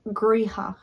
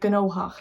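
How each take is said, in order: First: It is said the Ulster way, starting with gr. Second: It is said with gn at the start. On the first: "in Ulster they'd say griha" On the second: "other parts will say gnohach"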